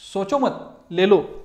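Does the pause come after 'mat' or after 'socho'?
after mat. There is a pause right after 'mat'. Take it without thinking. "Positive आहे"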